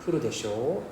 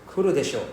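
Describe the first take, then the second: First: Kuru desho rising at the end, checking; seeking agreement. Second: Kuru desho with a falling end, sure of it; certain statement. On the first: Teacher showing students a confirming rising kuru desho. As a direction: lift the end of kuru desho like asking right?. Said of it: "That means, like, he will come, right?". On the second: Teacher showing students a certain falling kuru desho. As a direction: say kuru desho as a confident guarantee. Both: Shown as a demonstration.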